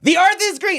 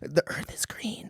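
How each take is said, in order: First: It is yelled loudly. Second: It is said at a normal, quiet volume.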